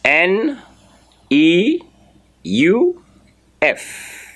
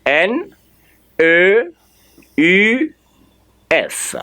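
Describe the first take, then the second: First: "N E U F" spelled as en, ee, you, eff; English letter names. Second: "N E U F" spelled with French vowels, E as uh, U as tight ü; French letter names. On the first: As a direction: spell "N E U F" in English, pausing after each letter. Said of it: "I should spell in, uh, English". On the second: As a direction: spell "N E U F" in French, pausing after each letter. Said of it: "spell it in French again". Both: Shown as a demonstration.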